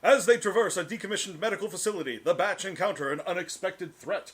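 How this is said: It is read in a newsreel announcer voice.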